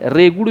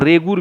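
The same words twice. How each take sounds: First: रेगुड़ ending on a retroflex flap; variant pronunciation. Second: रेगुड़ with a plain r ending; alternative pronunciation. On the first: Teacher showing students what many people call the soil, variant pronunciation. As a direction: say रेगुड़ with a flapped hard ड़ at the end. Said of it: "रेगुड़ भी बोलता है बहुत सारे लोग". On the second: Teacher giving students the other name for black soil, alternative pronunciation. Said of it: "और रेगुड़ भी बोला जाता है इसको". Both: Shown as a demonstration.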